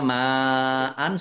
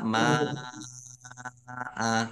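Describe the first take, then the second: First: The word ends with an n sound. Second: The word ends on an open vowel. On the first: The word is read without stopping. "seperti ini" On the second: The reader stops on this word. "kalau wakof itu dibacanya ma'a"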